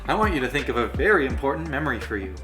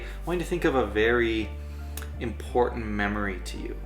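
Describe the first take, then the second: First: The tone of voice is casual and light. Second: The tone of voice is grave and serious. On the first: The speaker calls it wrong. "I don't say" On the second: The speaker calls it right. "it's serious because this is an important memory. So I'm acting serious"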